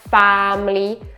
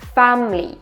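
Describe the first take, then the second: First: The vowels are drawn out long. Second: The vowels are kept short. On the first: The speaker calls it wrong. "It's not family" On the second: The speaker calls it right. "The vowels are short here"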